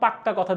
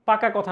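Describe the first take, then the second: First: The middle consonant is doubled and held long. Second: The middle consonant is short and single. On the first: A firm, emphatic promise. "মানে কি জোর দিয়ে বোঝাচ্ছে" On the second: A plain promise. "পাকা কথা না"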